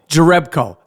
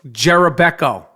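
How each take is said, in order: First: The surname is said with three syllables. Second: The surname is said with four syllables. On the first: The speaker calls it right. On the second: The speaker calls it wrong.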